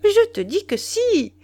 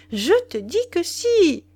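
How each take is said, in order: First: High, loud, leaning on "je"; impatient insistence. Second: High and loud, hitting "si" with a falling end; impatient insistence. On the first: Wife insisting to Duroy, impatient and loud. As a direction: insist sharply, pressing hard on "je". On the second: Wife repeating her point to Duroy, impatient and loud. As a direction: slam the final "si" down. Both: Acted. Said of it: "haussait les épaules avec impatience".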